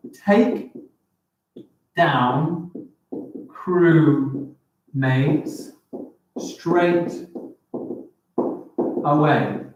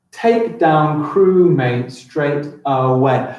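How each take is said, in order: First: "take down crewmates straight away" with a long pause after each word; word-by-word count, every word set apart; counting syllables. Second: "Take down crewmate straight away" read as one slow, joined line; slow, flowing line read-through; smooth slow read. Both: Shown as a demonstration. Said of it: "Does that fit my seven syllables?".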